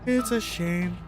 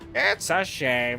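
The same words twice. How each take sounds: First: It is said in the speaker's normal voice. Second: It is said in a put-on old granny voice.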